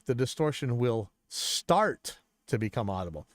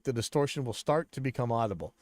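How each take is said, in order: First: The word start is said with strong emphasis. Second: The word start gets no special emphasis.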